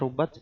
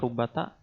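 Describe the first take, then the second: First: The word ends on a bare final t. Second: The word ends with an added a vowel. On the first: "bisa dibaca sukun" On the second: "bisa dibaca fathah jadi rubata"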